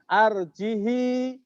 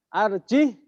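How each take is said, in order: First: The word ends with a lengthened i vowel. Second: The word ends on the h sound. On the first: "hinya jadi kasroh ditambah silah" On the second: "Arjih itu Imam Hafs"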